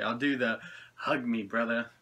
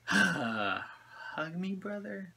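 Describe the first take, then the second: First: Said in the usual way. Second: A soft, breathy whisper on the last word; whispered quote. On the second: Retold or imitated. Reviewer quoting the creator's catchphrase, in a soft whisper. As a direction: hush it like a secret request.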